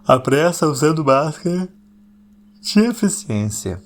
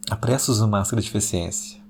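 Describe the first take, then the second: First: Dramatic announcement. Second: Said in the usual way. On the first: Shown as a demonstration. Podcaster unveiling a phrase to listeners, dramatic and drawn out. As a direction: announce it grandly, slowing onto the final word.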